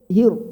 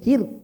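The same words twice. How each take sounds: First: The syllable is pronounced thick and full. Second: The syllable is pronounced thin and light. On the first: "Kalau tebal" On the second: "Kalau tipis"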